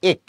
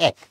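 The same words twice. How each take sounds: First: এক with a closed এ, like "ek"; wrong pronunciation. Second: এক with an open অ্যা vowel, "æk"; correct pronunciation. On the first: Teacher shows the never-used closed-এ এক. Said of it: "কখনো কিন্তু তুমি বলো না এক". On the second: Teacher gives the everyday অ্যা-sounding এক. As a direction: say এক right, opening the এ to অ্যা. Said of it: "তুমি বলো এক". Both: Shown as a demonstration.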